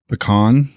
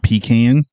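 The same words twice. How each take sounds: First: The first syllable is a short, weak 'pih'. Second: The first syllable is a full 'pee'. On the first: The speaker calls it right. "It's also pecan" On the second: The speaker calls it wrong. "not pecan ... you pee in it. That's the pecan"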